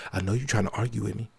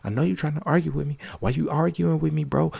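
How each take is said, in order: First: Low and quick. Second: Higher and quick. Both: Shown as a demonstration. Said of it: "That's why I said it like that".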